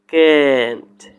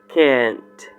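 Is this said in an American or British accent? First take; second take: American; American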